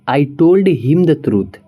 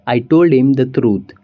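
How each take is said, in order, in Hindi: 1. 'him' अपनी h वाली आवाज़ के साथ पूरा बोला जाता है। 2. 'him' छोटा होकर 'im' जैसी आवाज़ में बोला जाता है।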